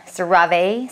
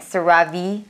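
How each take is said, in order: First: CeraVe drawn out, ending "vay"; CeraVe as ser-AH-vay. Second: CeraVe rising to a "vee" ending; CeraVe as ser-AH-vee. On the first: Vlogger testing either name, CeraVe as "ser-AH-vay". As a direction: say CeraVe slowly with a final "vay". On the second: Vlogger testing either name, CeraVe as "ser-AH-vee". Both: Shown as a demonstration. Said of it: "if it's CeraVe or CeraVe".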